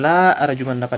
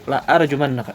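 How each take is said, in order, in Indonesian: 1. Vokal pada kata pertama dibaca panjang. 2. Vokal pada kata pertama tetap dibaca pendek. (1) "bukan la arjumannaka dibacanya" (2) "Dibacanya harus pendek"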